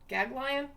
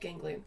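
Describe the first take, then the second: First: The first syllable has no n sound. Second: The first syllable has an n sound. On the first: "I'm going to go with Gaglion because that's what it looks like" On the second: "we'll go with ganglion"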